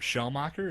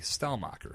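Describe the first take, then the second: First: The name begins with a 'sh' sound. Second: The name begins with an 'st' sound. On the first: The speaker calls it wrong. "mispronouncing his name" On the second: The speaker calls it right. "His name is actually Stellmacher"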